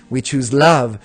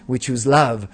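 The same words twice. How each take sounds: The two takes are said the same way.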